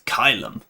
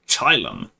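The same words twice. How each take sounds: First: It uses the classical Latin pronunciation. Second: It uses the ecclesiastical Latin pronunciation. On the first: "In the classical, it's" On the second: "I think that sounds lame"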